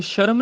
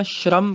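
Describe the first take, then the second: First: ਸ਼ਰਮ as sha-ram, vowel before r; wrong full r. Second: ਸ਼ਰਮ as shram, sh and r joined; half r. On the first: Teacher showing what not to say, ਸ਼ਰਮ as sharam. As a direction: put a vowel between sh and r in ਸ਼ਰਮ. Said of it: "ਸ਼ਰਮ ਨਹੀਂ ਕਹਿਣਾ". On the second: Teacher correcting students, ਸ਼ਰਮ as shram. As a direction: run sh into r in ਸ਼ਰਮ. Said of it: "ਅੱਧਾ ਰਾਰਾ ਹੈਗਾ". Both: Shown as a demonstration.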